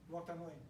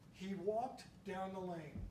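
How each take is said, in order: First: The phrase is read at a fast pace. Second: The phrase is read at a slow pace. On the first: "with the speed reading glasses" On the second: "without the glasses"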